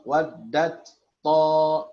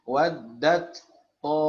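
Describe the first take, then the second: No difference in how they are said.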